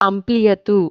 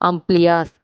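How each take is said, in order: First: The name ends with a 'tu' sound. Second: The name ends with an 's' sound. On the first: This is the Telugu form of the name. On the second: This is the English pronunciation of the name.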